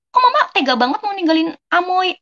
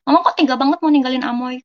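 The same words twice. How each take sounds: First: High, pleading plea to mama not to leave; begging mama not to leave Amoy behind; pleading reproach. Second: Said in the usual way. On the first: Retold or imitated. Daughter to her departing mother, raised pleading reproach. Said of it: "Mama lagi di P T, katanya". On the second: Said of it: "Anak aku namanya Gamora".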